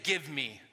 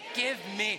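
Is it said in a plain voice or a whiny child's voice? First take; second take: plain; whiny child's. First: It is said in a plain adult voice. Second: It is said in a whiny child's voice.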